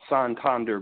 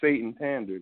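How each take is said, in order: First: The name begins with the sound 'San'. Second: The name begins with the word 'Satan'. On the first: It is the way the bank says it. The speaker calls it right. "They say Santander Bank" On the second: It is read straight from the spelling. The speaker calls it wrong. "They don't say Satan Tender"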